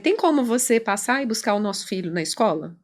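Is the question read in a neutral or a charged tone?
neutral. It is read in a plain, neutral tone. It is a simple request. "ela não falou assim igual você tá lendo"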